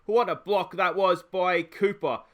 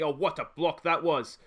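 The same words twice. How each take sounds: First: Slow, louder emphasis on "What a block"; drawn-out praise. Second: Said in the usual way. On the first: Real, not acted. Manager praising Cooper's block to viewers, slow emphatic praise. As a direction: stretch each word, savour the block.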